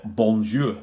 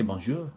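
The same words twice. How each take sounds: First: French word in broad northern English vowels; heavy northern English accent. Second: French word said with a French accent. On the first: Showing viewers his French put on in a heavy northern English accent. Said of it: "put on this, uh, heavy northern accent". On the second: Showing viewers he can also put on a French accent. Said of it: "put on a French accent". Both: Shown as a demonstration.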